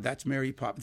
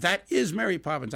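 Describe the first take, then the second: First: Said in the usual way. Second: "is" lifted and leaned on, insisting; stress on is. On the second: Retold or imitated. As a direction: stress the word "is" as if certain.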